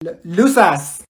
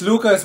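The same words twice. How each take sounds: First: Lucas said LOO-sass, after a stumble; mispronounced Lucas. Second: Said in the usual way. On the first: Acted. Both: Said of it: "It's Lucas".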